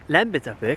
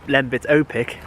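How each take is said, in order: First: The name is said with Estonian pronunciation. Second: The name is said with British pronunciation.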